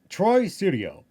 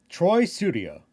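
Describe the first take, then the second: Both takes have the same delivery.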